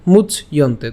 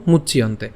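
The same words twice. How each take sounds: First: "মুচ ইয়ন্তে" in two parts, much, then yonte; split pronunciation. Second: "মুচ ইয়ন্তে" as one word, muchyonte; joined pronunciation. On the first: Teacher reads the broken-up slide, split "মুচ ইয়ন্তে". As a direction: break "মুচ ইয়ন্তে" after the ch. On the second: Teacher says we pronounce it together, joined "মুচ ইয়ন্তে". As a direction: run the ch of "মুচ ইয়ন্তে" into yonte. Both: Shown as a demonstration. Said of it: "তো আমরা একসাথে উচ্চারণ করবো".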